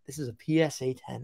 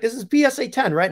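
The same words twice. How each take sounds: First: Said in the usual way. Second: High-pitched Italian caller impression; strong Italian accent. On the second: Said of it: "Strong Italian accent".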